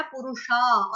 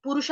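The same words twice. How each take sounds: First: पुरुषा ending in a held aa; extra long aa. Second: Said in the usual way. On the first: Shown as a demonstration. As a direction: stretch the last vowel of पुरुषा. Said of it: "आ की मात्रा लगी है extra". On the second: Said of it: "पुरुष आदमी को कहते हैं".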